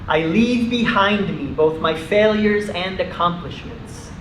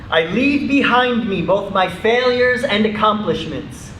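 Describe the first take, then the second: First: It is spoken at normal conversational volume. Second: It is spoken loudly with high energy. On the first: "in a normal speaking voice" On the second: "in a loud, energetic voice"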